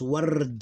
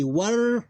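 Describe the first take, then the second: First: "ward" as one syllable, no vowel after the d; sukun ending. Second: "warda" split into a long war, then da; closed war, pause, open da with its vowel; syllable by syllable. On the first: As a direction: run r into a final d in "ward". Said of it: "we read it like this". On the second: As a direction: sound out "warda" higher, with a gap before da. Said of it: "Two syllables, close, open". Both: Shown as a demonstration.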